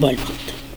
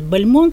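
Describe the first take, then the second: First: The stress falls on the first syllable. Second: The stress falls on the last syllable. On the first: This is the name's actual pronunciation. The speaker calls it right. "вообще-то он Бальмонт" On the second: This is the common, French-style way of saying the name. The speaker calls it wrong. "чаще произносят Бальмонт, ... о нем говорили по-французски"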